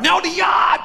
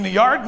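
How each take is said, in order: First: High, shouted R-less Boston "yard"; Boston accent. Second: Said in the usual way. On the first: Retold or imitated. Bostonian correcting the listener, shouting Boston accent. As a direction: insist loudly on "yard" in broad Bostonian.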